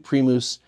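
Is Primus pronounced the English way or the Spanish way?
Spanish. The word is pronounced the Spanish way. "that should be how it's pronounced in Spanish"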